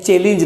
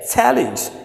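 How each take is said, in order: First: The first vowel is a closer 'e' sound. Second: The first vowel is an open 'a' sound. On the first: The speaker calls it wrong. "चैलेंज नहीं है" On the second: The speaker calls it right. "से challenge"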